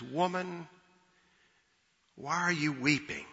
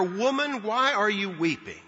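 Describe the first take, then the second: First: Soft, gentle, compassionate asking; hushed compassion; compassionate question. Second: Higher-pitched, curious angel asking; puzzled, inquiring lift; curious question. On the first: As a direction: ask tenderly, much more quietly, with room after the first word. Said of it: "asked this question out of compassion". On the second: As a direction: ask it out of curiosity, pitched up on the first word. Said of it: "angels ask out of curiosity". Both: Retold or imitated.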